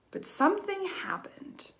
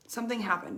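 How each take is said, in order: First: Hushed whisper, higher and softer; dramatic whisper. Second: Said in the usual way. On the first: Acted. To viewers, building suspense before the turn, whispered. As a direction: breathe it like a secret revealed.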